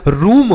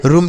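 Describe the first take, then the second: First: रूम with a long oo; correct long oo. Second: रूम with a short, quick u; wrong short u. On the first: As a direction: stretch the vowel of रूम slowly. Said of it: "बढ़ाऊ की मात्रा का उच्चारण करेंगे". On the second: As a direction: cut the vowel of रूम short, like "rum". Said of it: "रूम तो नहीं होता है". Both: Shown as a demonstration.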